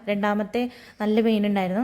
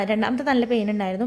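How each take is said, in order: First: Said in the usual way. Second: നല്ല leaned on with a rising lift; stress on നല്ല. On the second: Shown as a demonstration. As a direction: press the word നല്ല to insist how bad it was. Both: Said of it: "ആ, രണ്ടാമത്തെ നല്ല pain ഉണ്ടായിരുന്നു".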